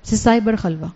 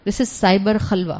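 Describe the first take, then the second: First: Said in the usual way. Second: "This is cyber خلوہ" said slowly, every word weighted; "cyber خلوہ" dragged out for emphasis; slow emphatic phrase. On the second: Shown as a demonstration.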